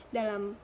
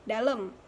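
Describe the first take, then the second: Both takes have the same delivery.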